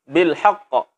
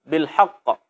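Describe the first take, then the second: Both takes have the same delivery.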